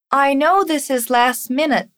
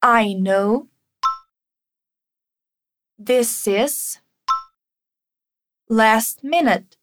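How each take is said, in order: First: Said in the usual way. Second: Slow, split into chunks for repeating; chunked teacher drill. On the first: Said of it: "repeat after me". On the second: Shown as a demonstration. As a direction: break it up slowly for the learner.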